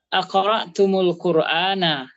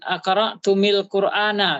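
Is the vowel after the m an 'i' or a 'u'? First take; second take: u; i. First: The m is followed by a u vowel. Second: The m is followed by an i vowel. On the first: The speaker calls it right. "di dhamma dia" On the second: The speaker calls it wrong. "bukan kasrah"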